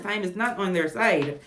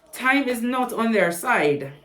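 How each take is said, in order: First: Said in the usual way. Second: "Time is not on their side" said slowly and pressed; a slow, weighty warning; slow emphatic. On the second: Shown as a demonstration. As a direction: draw out "Time" and lean on each word.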